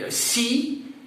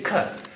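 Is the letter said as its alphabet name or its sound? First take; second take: name; sound. First: The letter is said as its alphabet name. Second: The letter is said as a hard k sound. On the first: "the name of the symbol of, of the letter" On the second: "So what's the phonetics?"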